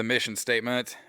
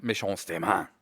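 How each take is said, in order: First: Said in the usual way. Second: "mission statement" as /mɪʃɔn steɪmæn/ in a hammed-up French accent; playfully mangle "mission statement" like a cheesy Frenchman; bad French accent. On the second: Shown as a demonstration. Podcaster goofing on his own intro, mock French accent. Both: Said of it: "Horrible French accent".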